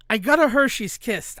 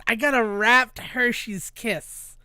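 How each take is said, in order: First: Said in the usual way. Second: "wrapped" drawn out slowly for emphasis; slow down and lean on "wrapped"; stress on wrapped. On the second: Real, not acted. Storyteller corrects himself to reveal the candy, stressing "wrapped". Repeats it, adding the key word.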